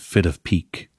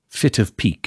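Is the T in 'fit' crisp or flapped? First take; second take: flapped; crisp. First: The T in 'fit' is softened like a D. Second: The T in 'fit' is a crisp, released T. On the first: "instead of" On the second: "So very crisp T's wherever they occur in the word"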